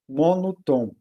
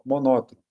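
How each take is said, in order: First: MONOTOM broken into MONO and TOM; deliberate split of monotom, part by part. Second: Said in the usual way. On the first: Shown as a demonstration. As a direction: separate monotom into its roots, landing on TOM. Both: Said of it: "um tom só".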